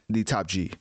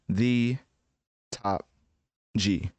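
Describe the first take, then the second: First: The words flow together with natural inflection. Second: Each word is said separately, with flat inflection. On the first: It imitates modern AI that sounds like real speech. The speaker calls it right. "it's like the top G" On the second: It imitates old AI splicing separate recorded words. The speaker calls it wrong. "the generic version of the AI, which usually be like the top G"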